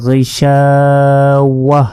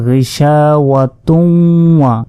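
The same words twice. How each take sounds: First: "গিশাওয়াহ" recited slowly, closing on a soundless-vowel h; pausal h ending. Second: "গিশাওয়াতুন" with tun sounded and hummed into "ওয়া"; joined without stopping. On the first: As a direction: stop on "গিশাওয়াহ" with an h instead of tun. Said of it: "হা হিসাবে উচ্চারণ করতে হবে". ("গিশাওয়াহ" থেমে শেষে হা সাকিন) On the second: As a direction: recite "গিশাওয়াতুন" slowly, running on into "ওয়া". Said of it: "যদি আমরা ওয়াকফ না করি". ("গিশাওয়াতুন" না থেমে "ওয়া"-র সাথে মিলিয়ে) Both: Shown as a demonstration.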